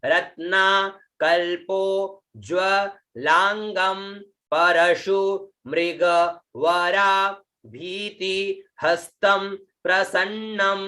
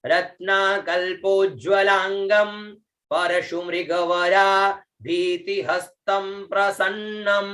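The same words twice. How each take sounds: First: Slow model reading, a gap after each word; word-by-word recitation. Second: Connected chant-like recitation on a level tone; correct Sanskrit pronunciation. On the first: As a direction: recite slowly piece by piece for learners. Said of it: "यह उच्चारण हुआ". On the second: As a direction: link the words in one flowing line, endings held. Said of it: "यह उच्चारण हुआ, शुद्ध उच्चारण". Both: Shown as a demonstration.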